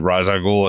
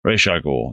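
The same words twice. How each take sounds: First: "Ra's al Ghul" with Ra's as RAHZ; earlier mistaken pronunciation. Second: "Ra's al Ghul" with Ra's as RAYSH; long A and SH in "Ra's al Ghul"; corrected pronunciation. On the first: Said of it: "I think I said". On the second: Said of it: "it's supposed to be pronounced". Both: Shown as a demonstration.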